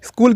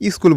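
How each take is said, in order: First: The word starts directly with the sk cluster. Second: A short i vowel comes before the sk cluster. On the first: "স্কুল কিন্তু বলে না" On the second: "স্কুল বলে। এই যে রস্বইটা যে সামনে আনলো"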